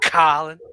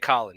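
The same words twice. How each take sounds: First: The O vowel is exaggerated and drawn out. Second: The O vowel is said plainly and briefly. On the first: "You like accentuate the O" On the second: "You don't just say Colin"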